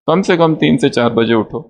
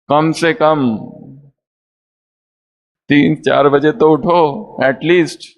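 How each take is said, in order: First: It is said in a mild, gentle tone. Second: It is said in a firm, insistent tone.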